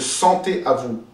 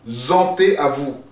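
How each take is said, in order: First: The first word begins with an s sound. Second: The first word begins with a z sound. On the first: The speaker calls it right. "au lieu de" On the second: The speaker calls it wrong. "prononcer un Z à la place d'un S"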